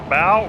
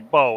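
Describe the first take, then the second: First: Bow sounds like the front of a ship. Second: Bow sounds like a ribbon on a package. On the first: "like the front of the ship" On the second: "like something you put on your a package to somebody"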